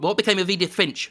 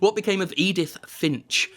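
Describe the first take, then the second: First: It is said very fast. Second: It is said at a normal pace.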